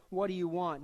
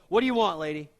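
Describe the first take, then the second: First: Said in the usual way. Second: Curt. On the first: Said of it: "I don't think Jesus is meaning to be curt". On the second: Pretend. Jesus imagined brushing off the mother, curt snap. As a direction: snap it like an annoyed clerk. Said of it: "He doesn't go".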